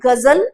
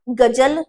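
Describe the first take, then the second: First: गजल with a buzzing z, gazal; correct z. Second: गजल with a hard j in the middle, gajal; wrong j. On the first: Teacher holding up the correct sound, गजल with buzzed z. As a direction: put z, not j, inside गजल. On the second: Teacher showing the sound that fails, गजल with plain j. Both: Shown as a demonstration. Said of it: "नहीं हो रहा है".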